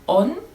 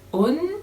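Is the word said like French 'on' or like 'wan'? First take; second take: like on; like on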